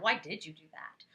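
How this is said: It sounds judgmental and accusing.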